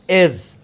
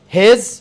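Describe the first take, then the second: First: The word is said in a reduced, weak form. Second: The word is said in its full, strong form.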